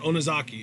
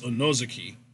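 First: The stress is not on the second syllable. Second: The stress is on the second syllable. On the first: The speaker calls it wrong. "It's not Onozaki" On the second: The speaker calls it right. "it's Onozaki"

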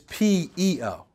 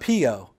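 First: It is said as three separate letters. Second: It is said as one blended word. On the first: The speaker calls it right. "You have to say the letters" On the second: The speaker calls it wrong. "it's not PO"

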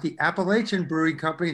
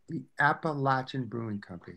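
First: Appalachian is pronounced the common outsider way. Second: Appalachian is pronounced the local way. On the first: The speaker calls it wrong. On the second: The speaker calls it right.

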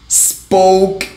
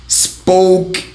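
No difference in how they are said.

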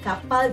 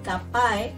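First: The word ends with an l sound. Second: The word ends with an i sound. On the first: This is the standard form of the word. "L tu jadikan I, daripada kapal jadi kapai" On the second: This is the local dialect form of the word. "L tu jadikan I, daripada kapal jadi kapai"

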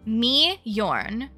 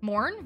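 First: The J is said as a Y sound. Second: The J is silent in the name. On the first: "Y sound" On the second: "Is the J silent? Is it just like Morn?"

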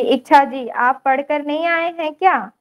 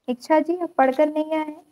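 First: It is said in a raised, high voice. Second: It is said in a lowered voice.

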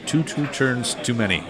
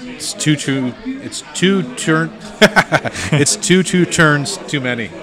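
First: The phrase is said fast with slurred words. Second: The phrase is said at a normal, clear pace.

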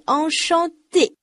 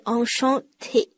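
First: The t is unaspirated and sounds like d. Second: The t is aspirated with a puff of air. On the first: The speaker calls it right. "它的最后一个音节d 不是t 哦……清辅音t 它在元音前面是不送气的，所以是Enchanté" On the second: The speaker calls it wrong. "不是Enchanté"

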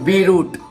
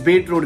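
First: The t at the end of beet is dropped. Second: The t at the end of beet is pronounced. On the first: The speaker calls it wrong. "Not बी root" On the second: The speaker calls it right. "It's बीट root guys"

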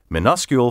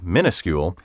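First: The first part sounds like 'minus'. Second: The first part sounds like 'mini'.

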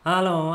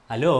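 First: The greeting sounds flat, mechanical and scripted. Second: The greeting sounds warm, natural and personal. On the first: The caller is an impersonal company script. The speaker calls it wrong. "Si me habla así, yo lo descarto inmediatamente" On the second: The caller is a real person reaching out. The speaker calls it right. "tiene un tono de voz como mucho menos robótico, mucho más personal"

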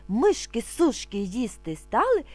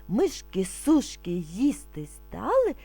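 Both takes have the same delivery.

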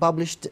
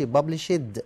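First: The final ending is said as t. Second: The final ending is not said as t. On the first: The speaker calls it right. "احنا بنقول published دي ديت انطقها تي" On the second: The speaker calls it wrong. "احنا ما بنقولش published"

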